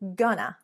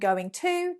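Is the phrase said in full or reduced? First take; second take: reduced; full. First: The words merge into two short syllables. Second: Both words are said fully and separately.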